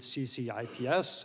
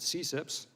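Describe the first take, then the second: First: Each letter is said separately. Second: It is said as a single word. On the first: "which is abbreviated" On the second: "and we pronounce it"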